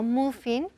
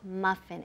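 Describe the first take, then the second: First: The first vowel sounds like oo. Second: The first vowel sounds like ah. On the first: The speaker calls it wrong. "no muffin" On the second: The speaker calls it right. "Esa U se pronuncia como si fuera una A"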